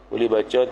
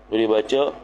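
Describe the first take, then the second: No difference in how they are said.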